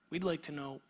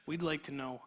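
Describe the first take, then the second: No difference in how they are said.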